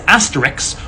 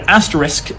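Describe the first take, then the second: First: The word ends with a 'ks' sound. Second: The word ends with an 'sk' sound. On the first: "as asterix" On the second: "pronounced the word asterisk"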